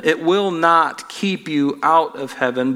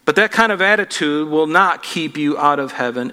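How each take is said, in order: First: "will" leaned on, slower; slow down and press "will"; stress on will. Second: Said in the usual way. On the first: Shown as a demonstration. Preacher repeats point slowly.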